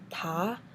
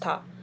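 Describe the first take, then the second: First: It is said with the second tone. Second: It is said with no tone at all. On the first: "And second is" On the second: "it's basically no tone"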